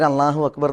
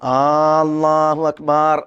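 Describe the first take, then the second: First: The opening vowel of Allahu is short. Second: The opening vowel of Allahu is drawn out. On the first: God is the greatest. The speaker calls it right. "അള്ളാഹു അക്ബർ എന്ന് തന്നെയാണ് പറയേണ്ടത്" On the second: It asks whether God is the greatest. The speaker calls it wrong. "ആ നീട്ടിയിട്ടുണ്ടെങ്കിൽ അത് തക്ബീറാവില്ല"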